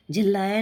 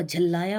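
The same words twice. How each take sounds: First: झिल्लाया with i in the first syllable; wrong pronunciation. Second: Said in the usual way. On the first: Shown as a demonstration. Teacher rejecting a mistake, झिल्लाया said with jhil. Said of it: "नहीं होगा". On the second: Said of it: "होगा".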